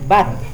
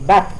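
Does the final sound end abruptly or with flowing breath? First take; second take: flowing breath; abrupt. First: Air keeps flowing out at the end. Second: The ending is stopped abruptly. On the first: The speaker calls it right. "Masih ada udara yang keluar ketika disukun" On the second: The speaker calls it wrong. "tidak dihentikan bat"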